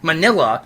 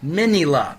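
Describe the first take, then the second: First: It is said in the traditional English way. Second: It is said as a clipped form of miniature. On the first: It makes the name sound like an ice cream topping. The speaker calls it wrong. "the traditional pronunciation of his name, ... is terrible" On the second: The name shortens Miniature Godzilla. The speaker calls it right. "an abbreviation for Miniature Godzilla"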